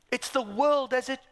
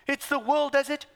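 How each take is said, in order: Both takes have the same delivery.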